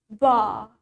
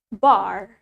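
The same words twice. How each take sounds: First: British accent, the final R is not heard. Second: American accent, the final R is clearly heard. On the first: "in British accent, we say it bar" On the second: "In American accent, we say it bar"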